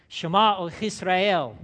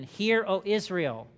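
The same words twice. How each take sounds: First: "Shema" said the Hebrew way as shuh-MAH, loud and proclaimed. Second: Said in the usual way. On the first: Shown as a demonstration. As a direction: call out "Shema" with the stress on MAH, like a synagogue recitation. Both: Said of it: "That's how they would say it".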